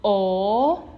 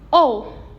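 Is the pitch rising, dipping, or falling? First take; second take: rising; falling. First: The pitch rises steadily. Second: The pitch falls sharply and briefly. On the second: "for the last one is o"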